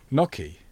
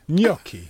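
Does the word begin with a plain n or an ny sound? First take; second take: n; ny. First: The word begins with a plain n sound. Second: The word begins with an ny sound. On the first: The speaker calls it wrong. "How else do you pronounce it?" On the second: The speaker calls it right.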